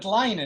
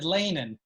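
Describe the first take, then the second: First: It is pronounced the Hasidic Yiddish way. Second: It is pronounced the standard Yiddish way. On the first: "and he said leinen" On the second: This is how the speaker says the word. "I would have said leinen"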